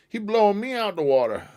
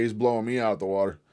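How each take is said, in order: First: Much higher, mock squeaky repeat; high goofy voice. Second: Said in the usual way. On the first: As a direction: squeak it out like a cartoon. Repeats line in silly voice.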